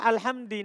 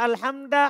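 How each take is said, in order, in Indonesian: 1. Kata ini berakhir dengan vokal i. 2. Kata ini berakhir dengan vokal a. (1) "Enggak boleh" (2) "Enggak boleh antum baca alhamda"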